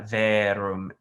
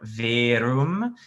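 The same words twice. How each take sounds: First: The vowel is said more open. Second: The vowel is said more closed. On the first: The speaker calls it right. "it's a more open sound" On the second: The speaker calls it wrong. "it's not right"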